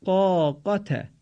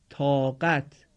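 First: Slow, higher قاقت with a heavy, drawn-out Arabic آ; Arabic pronunciation of قاقت, fuller آ than Persian; heavy Arabic long aa. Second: Said in the usual way. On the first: Shown as a demonstration. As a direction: stretch and thicken the first آ of قاقت. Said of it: "البته مقداری درشتر از آی فارسی میباشد". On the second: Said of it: "به این مثالها توجه کنید تا به میزان تفاوت".

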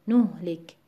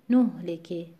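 First: نهلک with "nuh" stressed, ending on a still k; NUH-lik for نهلک. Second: نهلکی with "nuh" stressed and final "ki" light; NUH-liki for نهلکی. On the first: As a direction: lean on the نو and stop at k in نهلک. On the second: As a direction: lean on the نو, adding a light vowel in نهلکی. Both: Shown as a demonstration. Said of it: "در هر صورت رو حرف نو".

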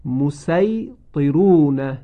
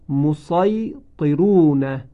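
First: مسیطرون slow with light s; recited with sin. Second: مسیطرون slow with heavy emphatic sad; recited with sad. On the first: Teacher demonstrates second reading, slow chant. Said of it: "وجه دوم با سین هست". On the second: Teacher demonstrates first reading, slow chant. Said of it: "وجه اول با صاد خوانده شده". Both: Shown as a demonstration.

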